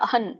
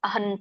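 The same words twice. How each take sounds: The two takes are said the same way.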